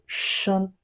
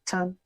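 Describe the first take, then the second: First: The word begins with an sh sound. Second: The word begins with a ch sound. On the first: The speaker calls it right. "So shen" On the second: The speaker calls it wrong. "they pronounce it as ch sound"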